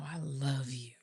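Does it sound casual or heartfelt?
heartfelt. It is said sincerely, with deep feeling.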